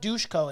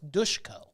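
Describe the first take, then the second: First: The middle consonant is a plain s sound. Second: The middle consonant is an sh sound. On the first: The speaker calls it wrong. "It's not Dushko" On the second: The speaker calls it right. "There's no H there, so I don't understand why we're pronouncing it"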